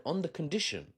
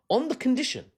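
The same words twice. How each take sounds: First: Said in the usual way. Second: "on the condition" pitched high and louder; "on the condition" rung out emphatically; emphatic repeat. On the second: Real, not acted. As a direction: hit "on the condition" hard, high and loud.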